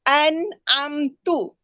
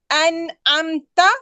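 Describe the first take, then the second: First: The word ends with the syllable tu. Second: The word ends with the syllable ta. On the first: The speaker calls it wrong. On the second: The speaker calls it right.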